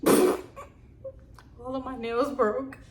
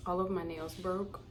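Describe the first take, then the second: First: Slow, laughing and higher; laughing at herself. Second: Said in the usual way. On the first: Real, not acted. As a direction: laugh through it, embarrassed.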